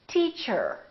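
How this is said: The final R is clearly pronounced. "Americans say"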